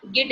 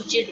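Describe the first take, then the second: First: गिड with a hard g sound, the wrong way; the rejected hard-g version गिड. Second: जिड with a soft j sound, the correct way; the correct soft-j version जिड. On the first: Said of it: "यहाँ पे गिड नहीं बोलेंगे". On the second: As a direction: say जिड with a J like in jam. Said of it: "हम जिड बोलेंगे". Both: Shown as a demonstration.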